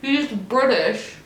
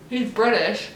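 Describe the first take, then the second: First: Incredulous. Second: Said in the usual way. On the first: Shown as a demonstration.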